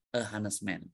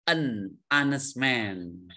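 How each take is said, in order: First: "a honest man", quiet, marked as the wrong form; wrong article demo. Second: "honest" with silent h, said "anest", slowly; pron of honest. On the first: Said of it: "itu kurang pas". ("a honest man" diucapkan sebagai contoh salah) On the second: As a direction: drop the h in "honest": "anes man". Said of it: "Karena pengucapannya dari". ("honest" dibaca "anes" tanpa h) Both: Shown as a demonstration.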